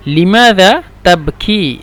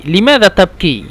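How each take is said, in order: First: Drawn out, word by word; slow teaching model. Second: Said in the usual way. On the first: Shown as a demonstration. Teacher modelling a question for learners, slow and separated. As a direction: stretch each word for learners to follow.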